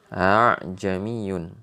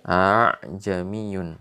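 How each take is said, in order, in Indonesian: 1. Hamzah kedua dilunakkan menuju vokal. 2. Hamzah kedua dilunakkan menuju vokal.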